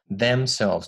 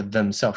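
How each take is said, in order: First: Themselves slowly with a clear "eh" in them; correct clear vowel. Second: Themselves rushed with a blurred first vowel; mistaken reduced vowel. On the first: Teacher models the right reading, slow clear themselves. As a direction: say themselves as THEM-SELVES, drawn out. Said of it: "是themselves". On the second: Teacher shows the wrong reading, themselves with a blurred vowel. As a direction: say themselves as "thum-selves". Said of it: "不是themselves". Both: Shown as a demonstration.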